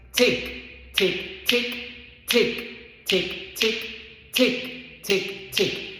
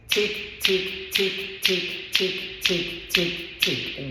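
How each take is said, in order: First: The ticks fall in an uneven, offbeat rhythm. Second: The ticks are evenly spaced in a steady beat.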